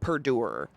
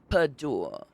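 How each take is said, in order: First: The word is said in an American accent. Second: The word is said in an English accent. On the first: It does not sound serious. The speaker calls it wrong. "I feel like it does not work in an American accent" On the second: It can be taken seriously. The speaker calls it right. "only a word in an English accent can you say and be taken seriously"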